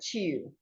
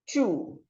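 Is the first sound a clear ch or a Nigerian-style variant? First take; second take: Nigerian-style; clear ch. First: The first sound is a Nigerian-style variant. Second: The first sound is a clear ch. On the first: The speaker calls it wrong. "an average Nigerian would call this word chew. That's incorrect" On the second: The speaker calls it right. "So the word is chew"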